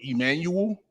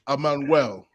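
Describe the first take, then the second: First: The name is said in plain English. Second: The name is said with a Spanish accent. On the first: "the regular way" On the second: "E make the A sound"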